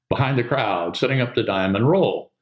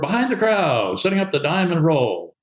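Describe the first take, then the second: First: It is said in a plain, ordinary tone. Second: It is said in a raised, energetic tone. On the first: It is a routine call for the maneuver. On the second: It lifts the spirits of a struggling teammate.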